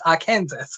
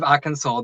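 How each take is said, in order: First: The final s is clearly pronounced. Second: The final s is silent. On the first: The speaker calls it wrong. "It's not silent" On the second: The speaker calls it right. "instead of"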